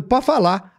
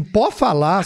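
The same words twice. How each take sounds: First: Said in the usual way. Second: "Pode falar?" with a rising question tune; surprised question. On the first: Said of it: "Aí o cara falou". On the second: Retold or imitated. Guest echoing the agent's Portuguese, surprised, rising. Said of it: "Aí eu falei assim".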